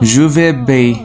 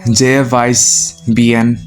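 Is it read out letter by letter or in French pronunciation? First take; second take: French pronunciation; letter by letter. First: It is said with real French pronunciation. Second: It is read out the way it is spelled. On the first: The speaker calls it right. "আসলে উচ্চারণ হবে" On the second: The speaker calls it wrong. "পড়তে গেলে আসে"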